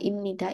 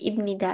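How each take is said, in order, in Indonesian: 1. Bunyi m diucapkan sebelum nida. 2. Bunyi m diucapkan sebelum nida.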